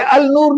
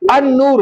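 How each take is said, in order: First: The article's l sound is clearly pronounced. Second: The l is silent and the n is doubled. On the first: The speaker calls it wrong. "ये अल नूर नहीं होगा" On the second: The speaker calls it right. "अन नूर होगा"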